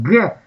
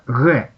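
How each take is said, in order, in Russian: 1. Звук «г» произносится по-стандартному. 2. Звук «г» произносится по-южному. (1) "У нас говорят «г»" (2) "а там говорят «г»"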